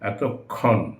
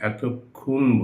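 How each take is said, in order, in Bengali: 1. 'kkh' ধ্বনির পরে 'o' স্বরধ্বনি আসে। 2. 'kkh' ধ্বনির পরে 'u' স্বরধ্বনি আসে। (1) "এটা অ" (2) "ক্ষিয়র নিচে একটা উকার লাগিয়ে দিই"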